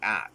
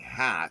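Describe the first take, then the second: First: The word starts directly with a vowel. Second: The word starts with an h sound. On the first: "they'll drop their H's" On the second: "instead of saying hat"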